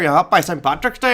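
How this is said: It is said in a put-on Irish accent.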